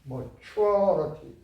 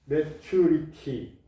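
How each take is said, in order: First: The vowels after the stress are weakened. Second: The vowels after the stress are said fully. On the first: The speaker calls it right. "강하면 약하라" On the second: The speaker calls it wrong. "땡이에요. 이렇게 하면은 리스닝이 안 돼요"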